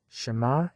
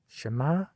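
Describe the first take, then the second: No difference in how they are said.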